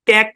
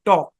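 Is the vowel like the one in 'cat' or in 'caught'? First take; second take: cat; caught. First: The vowel sounds like the one in cat. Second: The vowel sounds like the one in caught. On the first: The speaker calls it wrong. "ট্যাক না" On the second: The speaker calls it right. "এলটা silent, উচ্চারণ হচ্ছে টক"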